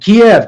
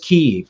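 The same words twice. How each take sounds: First: It is said the older way, like 'KEE-ev'. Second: It is said the Ukrainian way, like 'Keev'. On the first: This is the name everyone used before. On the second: This is the name everyone suddenly switched to.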